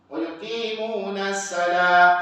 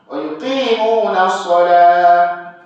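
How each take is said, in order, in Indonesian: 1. Bunyi s pada kata terakhir itu biasa dan ringan. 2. Bunyi s pada kata terakhir itu tebal dan bertekanan. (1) "Jangan dibaca pula sin"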